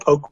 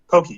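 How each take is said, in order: First: The word is said as one syllable. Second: The word is said with two syllables. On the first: The speaker calls it wrong. "you didn't even try" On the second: The speaker calls it right. "That's just how it's pronounced"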